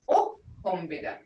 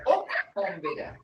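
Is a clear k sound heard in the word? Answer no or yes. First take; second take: no; yes. First: The word has no clearly heard k sound. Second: The word has a clearly heard k sound. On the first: This is the dictionary form. "In the dictionary, it says" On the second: This is how people from the speaker's home area say it. "we say ok, got the ok in there"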